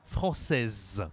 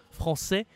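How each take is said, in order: First: FRANÇAISE falling, final z sounded; feminine pronunciation. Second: FRANÇAIS high and rising, final s silent; masculine pronunciation. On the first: Teacher recapping the rule, feminine pronunciation. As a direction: buzz the z closing "française". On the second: Teacher recapping the rule, masculine pronunciation. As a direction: open è closing "français", no z. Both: Shown as a demonstration. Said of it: "aussi sur la prononciation".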